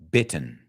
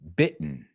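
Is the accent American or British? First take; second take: British; American. First: It is said in a British accent. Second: It is said in an American accent. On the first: "En inglés británico" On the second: "I'm going to say both words in American English"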